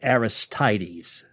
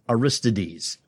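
First: The name is said in a plain English way. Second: The name is said like a classical Greek name. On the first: This is how the horse's name is commonly said. "They say his name is Aristides" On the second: This is how a Greek playwright's name would be said. "if he was a Greek playwright? You would pronounce it Aristides"

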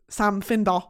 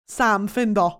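First: The name is said in a Newcastle accent. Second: The same.

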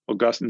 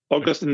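First: The stress is on the second syllable. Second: The stress is on the first syllable. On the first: It names a saint of the church. The speaker calls it right. "Augustine is a saint of the church" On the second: It names a city in Florida. The speaker calls it wrong. "Augustine is a city in Florida"

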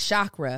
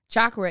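First: The word begins with a 'sh' sound. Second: The word begins with a 'ch' sound. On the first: The speaker calls it wrong. "Often mispronounced as chakra. With the SH sound heard like in shoe and ship" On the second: The speaker calls it right. "Chakra is actually pronounced with a ch, with the sound heard in patch and munch"

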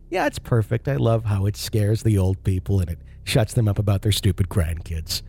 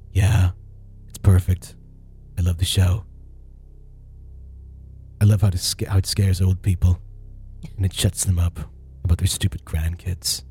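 First: It is said in a cheerful, delightful way. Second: It is a stereotypical, gloomy put-on voice.

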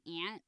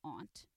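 First: It is said the Chicago way, like 'ant'. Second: It is said the classy way, like 'ahnt'.

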